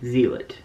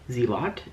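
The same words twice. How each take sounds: First: "Zealot" as ZEE-lit, short weak ending; trying a pronunciation. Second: "Zealot" as ZEE-lot, rising and softer; "Zealot" said ZEE-lot, unsure; trying a pronunciation. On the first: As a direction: test "Zealot" with a reduced second syllable. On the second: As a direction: test "Zealot" with a full LOT ending, questioning. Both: Shown as a demonstration. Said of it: "I can't say that word right".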